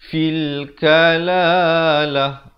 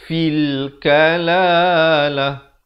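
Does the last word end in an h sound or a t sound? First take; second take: h sound; h sound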